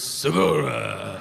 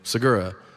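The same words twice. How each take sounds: First: The name is said in a Japanese style. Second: The name is said in a plain American way.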